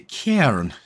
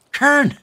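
First: Said in the usual way. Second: High-pitched mock-Irish cry; cairn voice. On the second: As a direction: call it out in a daft Irish voice. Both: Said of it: "in that cairn voice".

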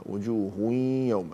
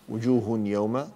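First: Sung, slow وجوه يوم, tanween melted into nasal y; sung, drawn-out ghunna in وجوه يوم; merging with nasal hum. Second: Said in the usual way. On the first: Shown as a demonstration. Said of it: "إدغام بغنة".

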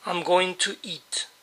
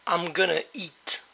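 First: "going to" spelled out slowly, each word clear; slow model sentence for learners; teacher saying "going to eat" carefully; careful full form. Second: "gonna" run together as "amgona", natural speed; casual native-speed "gonna"; everyday reduced "I'm gonna eat". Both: Shown as a demonstration. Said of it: "también es común escuchar".

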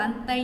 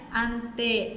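First: "ante" mispronounced as an-tai, ending in a glide; wrong final vowel. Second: "Ante" ending in a held, pure e with no glide; correct long E. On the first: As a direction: end "ante" in "ai" instead of a long e. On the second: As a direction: hold the last e of "Ante" steady and let it fall. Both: Shown as a demonstration. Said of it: "không đọc là ante nhé".

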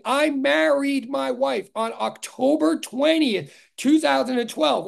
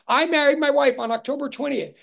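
First: Slow, weight landing on "twentieth"; stress on twentieth. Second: "married" lifted and stressed, then falling. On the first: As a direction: lean on "twentieth" and fall on it. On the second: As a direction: punch the word "married". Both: Shown as a demonstration. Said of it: "October twentieth, right?".

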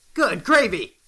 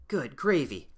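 First: "Good gravy!" blurted loud and high in shock; good gravy exclaimed. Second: Said in the usual way. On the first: Real, not acted. Player stunned by a lava lake, loud surprised exclaim.

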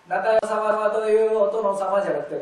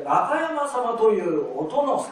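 First: 中山様というお殿様 read louder, chopped at という; the wrong take of 中山様というお殿様; wrong phrasing. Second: 中山様というお殿様 slow, linked, rising on 中; the correct take, 中山様というお殿様 in one linked phrase; right phrasing. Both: Shown as a demonstration.

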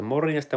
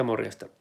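First: Higher morjesta that falls away; sing-song greeting. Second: Said in the usual way. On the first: Shown as a demonstration. Greeting Rainbow Master in chat, a higher sing-song hello. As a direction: sing the morjesta up then let it drop.

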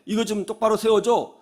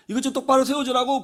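First: Mild retold appeal; acted request. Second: Higher, insistent retold demand; acted insistence. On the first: Old man to student on the bus, mild request. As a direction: ask it like an elder, only lightly voiced. Elder asks student to raise seat. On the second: Old man to student ignoring him, insistent demand. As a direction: press an ignored request, lightly acted. Elder repeats the ignored request.

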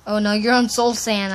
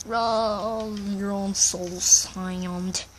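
First: Said in the usual way. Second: Low, stretched-out words; slow-motion warning. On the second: Pretend. Boy warning friend on Soul Sand, slow drawn-out voice. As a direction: drag it out in mock slow motion.

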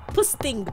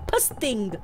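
Both takes have the same delivery.

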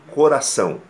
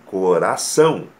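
First: Coração stressed early, not on the final são; deliberately wrong stress in coração. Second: Coração with the weight on the final são; stress on the last syllable. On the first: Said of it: "A palavra coração é uma oxítona". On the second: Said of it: "com ênfase na última sílaba". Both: Shown as a demonstration.

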